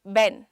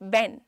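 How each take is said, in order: The two takes are said the same way.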